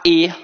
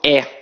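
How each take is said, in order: First: The vowel is pronounced closed. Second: The vowel is pronounced open. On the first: "em vários outros estados, a pronúncia é mais fechada. Então as pessoas falam" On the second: "Aqui no Rio de Janeiro, a nossa pronúncia é muito aberta. Então eu falo"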